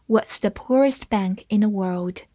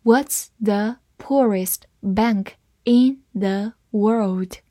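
First: Said in the usual way. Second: Slow, each word set apart; careful teacher's model for repeating; slow reading. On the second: Shown as a demonstration. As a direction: read it out slowly, word by word. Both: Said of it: "我们慢慢来读一下".

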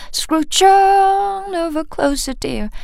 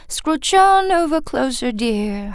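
First: "Scrooge on" lifted high and slow; pulled-up pitch. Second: Sung, "Scrooge on" passed quickly; sung, let the turn go by fast; quick real singing. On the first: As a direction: stretch the tune upward on "on". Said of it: "这里往上拉音". (夸张地往上拉音) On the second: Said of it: "很快，那个turn很快就过去了". (sung, 真正唱时很快带过) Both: Shown as a demonstration.

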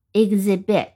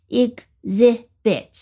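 First: Said in the usual way. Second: "exhibit" slowly in three separate pieces, ex-hi-bit; syllable by syllable. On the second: Shown as a demonstration. Teacher introducing a new word, "exhibit" syllable by syllable.

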